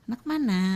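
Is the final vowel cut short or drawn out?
drawn out. The final vowel is long with a swinging melody. "panjang dan berayun"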